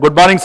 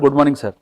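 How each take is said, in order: First: The greeting sounds warm and confident. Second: The greeting sounds timid and fearful.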